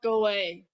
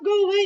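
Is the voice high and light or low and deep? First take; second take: low; high. First: The voice is low, deep and grounded. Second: The voice is high and light, from the head. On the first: The speaker calls it right. "that low, grounded voice" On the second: The speaker calls it wrong. "as opposed to talking from your head"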